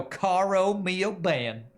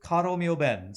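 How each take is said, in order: First: "Caro mio ben" dragged out slow and high in a mock East Texas drawl, "ben" stretched to "be-en"; hammed-up Texas twang mangling "Caro mio ben"; bad Texas drawl. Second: "Caro mio ben" in clean Italian with a rolled r and a pure open "ben"; imitating a classmate's proper Italian "Caro mio ben"; good Italian diction. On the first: Mocking a Texan classmate singing Italian, slow exaggerated Texas drawl. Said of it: "some really bad drawl". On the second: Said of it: "he would do a pretty good pronunciation of".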